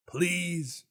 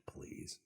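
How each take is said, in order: First: High, loud mock plea; playful begging. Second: Tiny whispered mock plea; hushed pleading. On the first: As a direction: beg in a pitched-up pretend whine. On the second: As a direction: beg under your breath, playfully. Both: Begging the game for a budget.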